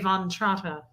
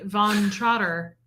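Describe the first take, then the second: First: The name is said without an American accent. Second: The name is said with an American accent. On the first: The speaker calls it right. "I'd have to say Von Trotta" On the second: The speaker calls it wrong. "in like an American accent"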